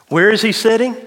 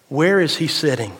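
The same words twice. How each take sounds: First: "Where is he sitting?" with a sharp rising push on "sitting"; emphatic repeat. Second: Said in the usual way. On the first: Shown as a demonstration. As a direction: fire the question at the crowd, stressing "sitting".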